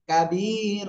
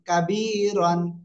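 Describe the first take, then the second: First: The word ends without an n sound. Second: The word ends with an n sound. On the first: The reader stops on this word. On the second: The reader continues without stopping.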